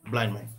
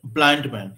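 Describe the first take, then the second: First: ब्लाइंड मैन in one breath, the d dropped; teacher shows the right way, ब्लाइंड मैन in one breath. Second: ब्लाइंड मैन with a clear d and a break; teacher shows the d causing a break in ब्लाइंड मैन. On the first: ब्लाइंड मैन said as blain men. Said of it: "single breath में बोल देंगे". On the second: ब्लाइंड said with the d, then मैन after a gap. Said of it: "ड जो है थोड़ा सा break create". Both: Shown as a demonstration.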